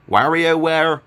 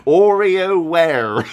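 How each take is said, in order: First: "WarioWare" with a short a in the first syllable; attempted pronunciation. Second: "OreoWare" with the W lost, drawn out loud; botched pronunciation. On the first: Vlogger trying out a game title, "WarioWare" with short a. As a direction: say "WarioWare" starting like "wag". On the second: Vlogger failing at a game title, "OreoWare" slow and exaggerated. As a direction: stretch "OreoWare" out, starting on a long "or". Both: Real, not acted. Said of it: "I can't bloody say it".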